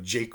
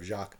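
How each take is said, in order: First: The name is said with English pronunciation. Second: The name is said with French pronunciation. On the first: "Shakespeare didn't really use French French pronunciation" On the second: "instead of"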